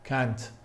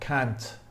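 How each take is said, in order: First: It is said in an American accent. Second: It is said in an American accent.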